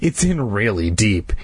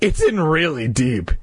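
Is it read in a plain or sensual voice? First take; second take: sensual; plain. First: It is read in a sensual voice. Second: It is read in a plain voice.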